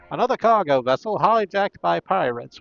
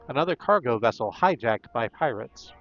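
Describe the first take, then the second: First: It is read in a put-on character voice. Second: It is read in the speaker's normal voice. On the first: The speaker calls it right. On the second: The speaker calls it wrong.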